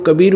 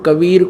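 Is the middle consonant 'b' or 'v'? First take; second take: b; v. First: The middle consonant is a 'b' sound. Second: The middle consonant is a 'v' sound. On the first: This is the everyday local form of the name. "बोलने लगे" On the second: This is the form written in the Vedas. "हम कबीर को"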